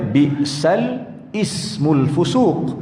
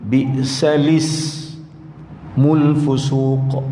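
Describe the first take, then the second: First: The word ismul starts with a separate glottal catch. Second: The word ismul runs smoothly into the previous word. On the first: "asal dia" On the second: "buang alif tu, gantikan dengan terus dengan bacaan dia dengan tashil"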